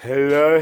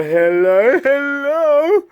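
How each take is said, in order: First: Said in the usual way. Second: Hello pitched very high, rising; high squeaky hello. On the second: Shown as a demonstration. Testing voice, building higher.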